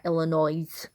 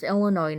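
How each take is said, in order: First: "Illinois" with the final S sounded; mispronunciation. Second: "Illinois" with a silent S, ending in "noy"; correct pronunciation. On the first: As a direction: say "Illinois" ending in "noise". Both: Shown as a demonstration. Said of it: "You don't pronounce the S".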